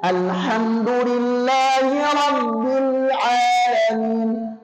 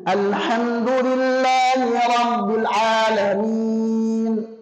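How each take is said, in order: First: The L in Rabbil is held fully. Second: The L in Rabbil is cut short. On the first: The speaker calls it right. "Harusnya ... Rabbil, jelas ya" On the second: The speaker calls it wrong. "disebut ikhtilas"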